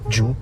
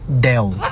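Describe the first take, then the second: First: The word begins with a J sound. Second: The word begins with a plain D sound. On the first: The speaker calls it wrong. "Tama ba yun?" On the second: The speaker calls it right. "listen carefully"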